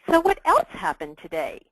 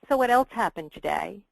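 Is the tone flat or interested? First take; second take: interested; flat. First: It is said with warm interest. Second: It is said flatly, without interest.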